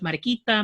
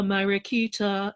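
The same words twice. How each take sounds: First: It is said with a native Spanish accent. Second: It is said with an English-speaker's accent. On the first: It is how native speakers say it. The speaker calls it right. "instead of" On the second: It imitates a famous foreign singer's pronunciation. The speaker calls it wrong. "the pronunciation is hilarious, but his accent is crap"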